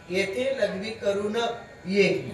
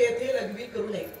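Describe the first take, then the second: First: It is read with a break before 'ये'. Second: It is read smoothly without a break.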